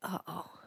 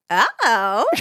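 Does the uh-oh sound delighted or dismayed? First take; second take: dismayed; delighted. First: It sounds dismayed and disappointed. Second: It sounds delighted and cheeky. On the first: Bad news has been received. "if I said to you, oh, I lost your bike" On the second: Good news has been received. "if I said to you, I bought you a treat"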